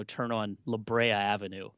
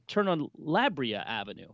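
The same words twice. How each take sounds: First: "La Brea" said slowly, as "lə BRAY-uh"; slow robotic Maps reading of "La Brea"; imitating a misread street name. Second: "La Brea" said slowly, as "LAH bree-uh"; slow Maps voice, stress moved to "La"; other misreading. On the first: Mocking his Maps app, slow robotic voice. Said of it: "puts emphasis on the wrong syllable". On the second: Retold or imitated. Mimicking Maps' other pronunciation, slow robotic voice. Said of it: "not even consistent with its pronunciation".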